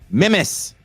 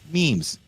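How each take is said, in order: First: It uses the speaker's home, non-American pronunciation. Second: It uses an American pronunciation of the word. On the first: "as they say where I'm from" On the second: "as you Americans say"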